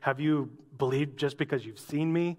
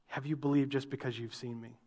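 First: It is said in a scolding, reproachful tone. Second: It is said in a gentle, explanatory tone.

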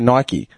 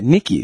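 First: It is pronounced the American way. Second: It is pronounced the non-American way. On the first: "In America, they say Nike" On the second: "And we say it wrong"

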